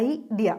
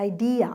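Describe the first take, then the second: First: idea with the stress on the first syllable, EYE-dia; Malayalam-style stress. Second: idea said the English way, stress on the second syllable, i-DEA; English stress on idea. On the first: Teacher contrasting the usual Malayali habit, idea stressed at the start. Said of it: "idea എന്ന് നമ്മൾ പറയാം". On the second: Teacher showing students the correct stress, idea with weight on DEE. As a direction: say idea as eye-DEE-a, leaning on the middle. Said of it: "അങ്ങനെയാ പറയുക". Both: Shown as a demonstration.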